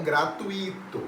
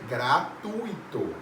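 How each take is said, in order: First: Gratuito slowly as "gra-tu-Í-to"; stress on the i. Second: Gratuito slowly as "gra-TUI-to", one gliding syllable; stress on the u. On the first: Teacher contrasts the wrong form, gratuito stressed on the i. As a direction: stretch a separate Í in gratuito. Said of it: "não gratuito". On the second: Teacher gives the correct form, gratuito stressed on TUI. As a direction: sound out gratuito slowly, weight on TU. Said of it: "O correto é gratuito". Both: Shown as a demonstration.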